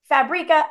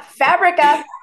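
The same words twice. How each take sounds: First: It rhymes with paprika and eureka. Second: It does not rhyme with paprika. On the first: The speaker calls it wrong. "I was a paprika, eureka, fabrica" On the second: The speaker calls it right. "as the trolls have told me"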